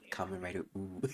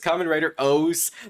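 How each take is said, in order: First: The last word is a long 'ooh' sound. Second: The last word is said like 'ohz'. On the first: "I always pronounce it as Kamen Rider ooh because it just sounds so ridiculous" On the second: "I know it's Kamen Rider O's"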